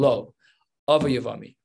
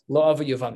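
First: There is a pause right after Lo. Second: The phrase flows without a pause after Lo. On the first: No; he really does want to marry me. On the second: He refuses to marry me.

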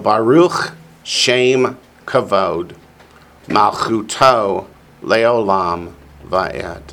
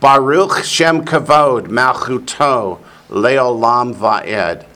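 First: The phrase is said slowly, word by word. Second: The phrase is said at a quicker, flowing pace.

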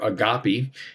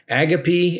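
First: The word is said a non-British way. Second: The word is said the British way.

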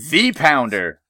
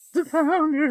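First: It is said in a plain, neutral voice. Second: It is said with fear in the voice.

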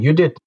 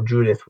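First: The name is said in a non-American way. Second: The name is said in the American way.

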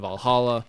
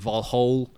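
First: The word has three syllables, ending in -halla. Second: The word has two syllables, ending in -hol. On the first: The speaker calls it wrong. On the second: The speaker calls it right.

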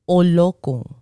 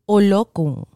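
The two takes are said the same way.

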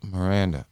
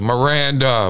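First: It is said softly and hesitantly. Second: It is said boldly with a deeper voice. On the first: The speaker sounds unsure about his girlfriend. The speaker calls it wrong. "You said it like" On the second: The speaker proudly claims his girlfriend. The speaker calls it right. "you gotta say"

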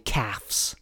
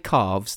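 First: It is said with an American pronunciation. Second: It is said with a British pronunciation. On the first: "that's what Americans say... They say calves" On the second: "They don't say calves, do they? Because they're not posh like us"

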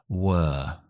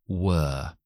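No difference in how they are said.

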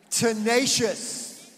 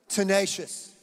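First: It is said forcefully, with more energy. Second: It is said calmly, with ordinary energy.

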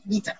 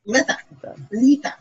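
First: The middle consonant is a plain 't' sound. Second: The middle consonant is a 'th' sound. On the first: The speaker calls it right. "no T-H" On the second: The speaker calls it wrong.

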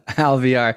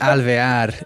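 First: The name is said with an English pronunciation. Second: The name is said with a Spanish pronunciation. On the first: "there you go" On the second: "in Espanol"

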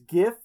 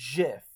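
First: It begins with a hard G sound. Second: It begins with a soft G sound. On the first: The speaker's own preferred way of saying it. The speaker calls it right. "my preferred pronunciation is GIF because it stands for Graphics Interchange Format" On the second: The way the term's creator intended it. The speaker calls it wrong. "the creator of that term has come out to say he intended it to be pronounced"

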